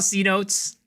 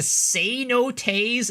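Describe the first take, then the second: First: It is said with two syllables, like 'see notes'. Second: It is said with three syllables, ending in 'tays'. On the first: This is an anglicized way of saying the word. The speaker calls it wrong. "I'm gonna call it C notes" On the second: This is how the word is properly said. The speaker calls it right. "Apparently, it's a say no Tays"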